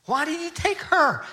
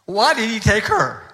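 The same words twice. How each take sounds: First: Higher, aching question; a widower pleading with God through tears; high broken plea. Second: Louder, pained demand at God; a grieving widower's angry question; anguished outcry. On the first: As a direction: ask it like a heart breaking. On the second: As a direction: cry out why did he take her. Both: Retold or imitated. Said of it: "He was just furious with God".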